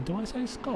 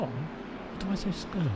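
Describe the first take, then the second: First: "scone" said to rhyme with gone, short o. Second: "scone" said to rhyme with bone, long o, slowly. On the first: Streamer asking chat which way to say it, "scone" rhyming with gone. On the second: Streamer asking chat which way to say it, "scone" rhyming with bone. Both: Shown as a demonstration.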